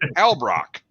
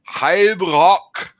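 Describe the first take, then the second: First: The name is said quickly and loosely. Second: The name is said slowly and carefully. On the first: This is only close to the correct way. The speaker calls it wrong. "every time I say it like close" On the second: This is the correct way to say the name. The speaker calls it right. "he says it right, like slow"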